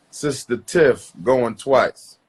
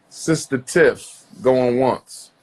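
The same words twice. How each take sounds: First: Slow, drawn-out auctioneer call, second round. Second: Slow, drawn-out auctioneer call. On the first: Host calling Sister Tiff again, slow auctioneer call. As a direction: stretch the name out, then going twice. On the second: Host calling Sister Tiff onto the line, slow auctioneer call. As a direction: call her name like an auction countdown. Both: Acted.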